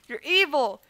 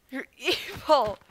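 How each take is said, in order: First: Said in the usual way. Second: Slow, with a laugh breaking in. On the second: Pretend. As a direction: laugh through the word evil. Repeats accusation, then laughs.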